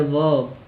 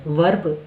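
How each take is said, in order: First: वर्ब as "vob", no r; वर्ब with an "a" sound and no r; r-less take. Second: वर्ब with a clear r: "verb"; वर्ब, r rolled in; r-pronounced take. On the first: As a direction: say वर्ब dropping the r. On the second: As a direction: say वर्ब sounding the r. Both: Shown as a demonstration. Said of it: "कौन सा ज़्यादा comfortable है".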